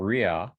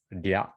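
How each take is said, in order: First: It starts with a full English-style r sound. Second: It starts with a quick sound between r and l. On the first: The speaker calls it wrong. "It's not ria" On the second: The speaker calls it right. "kind of like a mix of like an R and L"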